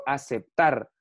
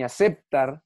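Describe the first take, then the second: First: Slow "aceptar" landing on final TAR; stress on TAR. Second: "aceptar" stressed on middle syllable CEP; wrong stress on CEP. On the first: Teacher showing the correct word, "aceptar" stressed on drawn-out TAR. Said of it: "Aceptar lleva el acento en tar". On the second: Teacher showing a second wrong version, "aceptar" stressed on CEP. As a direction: hit CEP in "aceptar", leaving TAR weak. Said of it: "ni aceptar". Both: Shown as a demonstration.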